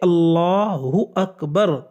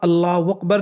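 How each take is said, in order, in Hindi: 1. Allahu को h की आवाज़ के साथ कहा जाता है। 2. Allahu को w की आवाज़ के साथ कहा जाता है। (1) "आपको अल्लाहु अकबर कहना है" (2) "हाँ की जगह वाव निकालते हैं"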